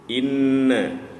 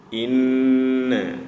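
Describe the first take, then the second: Both takes have the same delivery.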